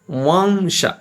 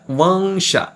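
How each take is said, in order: No difference in how they are said.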